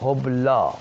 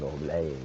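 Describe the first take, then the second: First: The final vowel is a plain open a. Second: The final vowel is tilted toward e.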